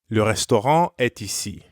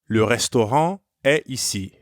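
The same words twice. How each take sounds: First: A T sound links est to ici. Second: No T sound links est to ici. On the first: "When the words are connected like this, it's called a liaison" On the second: "Notice the difference again"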